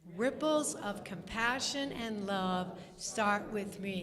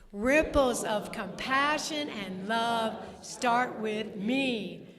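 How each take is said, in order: First: It is said at normal volume. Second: It is said more loudly.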